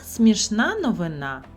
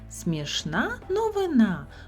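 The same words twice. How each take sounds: First: The phrase is said at a faster pace. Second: The phrase is said at a slower pace.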